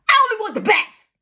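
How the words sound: It is said in a harsh, angry tone.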